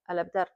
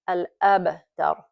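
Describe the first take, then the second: First: The b has no echoing bounce. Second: The b has a light echoing bounce. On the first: The speaker calls it wrong. "we are not giving the proper qalqala" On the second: The speaker calls it right. "it's going to be a light, khafif pronunciation"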